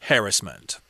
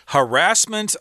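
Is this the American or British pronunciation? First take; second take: British; American. First: It is said the British way. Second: It is said the American way.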